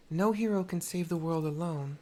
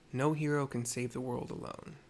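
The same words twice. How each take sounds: First: Delivered higher, louder and in earnest; player character line. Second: Said in the usual way. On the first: Acted. Mercy tells the girl no hero works alone, voiced firmly. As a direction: say it like a firm hero's lesson. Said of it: "I think it's the better option". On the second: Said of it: "My options here are".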